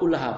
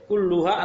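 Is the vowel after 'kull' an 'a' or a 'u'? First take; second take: a; u. First: The vowel after 'kull' is 'a'. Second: The vowel after 'kull' is 'u'. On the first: The word is in the accusative case. "boleh dibaca nasab" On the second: The word is in the nominative case. "boleh dibaca rafa"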